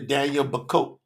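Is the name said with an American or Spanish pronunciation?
American. The name is pronounced the American way. "If I'm in U S A"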